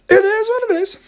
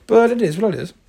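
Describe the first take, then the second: First: High sing-song "It is what it is"; high mock shrug. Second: Said in the usual way. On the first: Real, not acted. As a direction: toss it off high and resigned. Repeat high and exaggerated.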